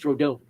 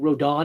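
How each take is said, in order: First: The last syllable has a full O sound. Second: The last syllable lacks a full O sound. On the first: The speaker calls it right. "That little accent makes it the O sound" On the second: The speaker calls it wrong. "when people mispronounce names"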